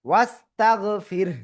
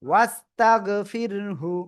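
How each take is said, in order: First: The final h has no vowel after it. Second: The final h is followed by a short u. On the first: The reading stops at this word. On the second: The reading continues without a stop.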